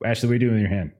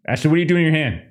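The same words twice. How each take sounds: First: Said in the usual way. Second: Raised higher in mock alarm; mock alarmed question. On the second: Real, not acted. GM calling out player for her hand. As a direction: call her out in playful alarm.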